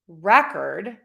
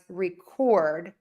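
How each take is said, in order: First: The stress is on the first syllable. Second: The stress is on the second syllable. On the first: It names a thing. "which is the noun ... syllable number one is higher in pitch, longer vowel, and louder" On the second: It names an action. "which is the verb ... the second syllable gets the louder, longer, and higher"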